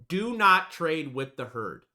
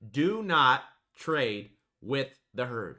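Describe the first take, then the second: First: "do not trade with the herd" slow, "not" hit hard; slow emphatic. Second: "do not trade with the herd" again slowly, stress on "do"; slow it down and press on "do"; slow repeat. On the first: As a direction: drill it in word by word. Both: Shown as a demonstration. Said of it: "drill this in your guys' head".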